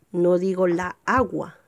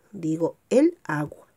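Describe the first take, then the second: First: La agua, the wrong form; wrong article. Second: El agua, stressing el; correct article. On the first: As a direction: say la agua with la before agua. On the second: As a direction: say el agua, with el before agua. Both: Shown as a demonstration.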